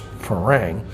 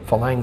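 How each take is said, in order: First: The middle consonant is an R sound. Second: The middle consonant is an L sound. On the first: "It's Farang" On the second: "it'll be come out as Falang"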